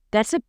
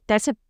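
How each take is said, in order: Both takes have the same delivery.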